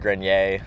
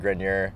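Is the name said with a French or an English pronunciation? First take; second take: French; English. First: The name is said with a French pronunciation. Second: The name is said with an English pronunciation. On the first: This is how a relative says it. "the French version" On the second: This is how the family says it. "we, as our family, say Grenier"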